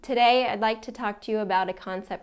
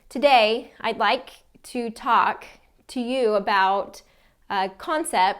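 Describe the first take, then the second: First: It runs on flatly with almost no pauses. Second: It is broken up by many short pauses. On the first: The speaker sounds boring. "not a lot of pausing or breaks in between sentences" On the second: The chunks are separated too often. "creating too many breaks"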